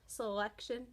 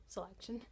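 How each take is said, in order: First: Said in the usual way. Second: "selection" said again softer, carefully corrected; a quiet self-corrected "selection". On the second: Shown as a demonstration. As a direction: rework "selection" quietly, getting it right. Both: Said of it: "well, selection".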